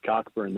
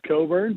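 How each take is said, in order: First: The name is said with a k sound. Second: The name is said without a k sound. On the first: This is how the name looks when read. "I wish it was Cockburn" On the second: This is the accepted pronunciation of the name. "I believe it's pronounced Coburn"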